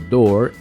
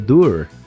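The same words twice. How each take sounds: First: The vowel is an open 'or' sound. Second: The vowel is a 'oo' sound. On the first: The speaker calls it right. "se pronuncia como door" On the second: The speaker calls it wrong. "en lugar de door"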